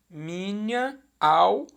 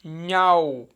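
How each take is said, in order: First: Minha and au kept apart, mi-nha-au with a break; split into three syllables. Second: Minhau glided as mi-nhau, the a and u joined in one beat; fused into two syllables. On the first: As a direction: separate minha from au, three beats. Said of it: "eram três sílabas". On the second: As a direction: say Minhau as one flowing word, merging the vowels. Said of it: "na divisão silábica poética". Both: Shown as a demonstration.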